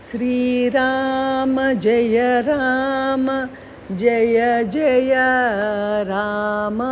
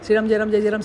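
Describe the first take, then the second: First: It is said slowly and fondly. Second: It is said quickly and hurriedly. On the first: It is said with devotion. The speaker calls it right. "ఎంతో ఇష్టంగా చేసేవారు" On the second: It is said just to finish the count. The speaker calls it wrong. "మనకి ఏంటంటే తొందర"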